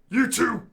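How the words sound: It is said in a put-on butch woman's voice.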